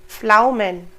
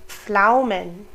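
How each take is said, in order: The two takes are said the same way.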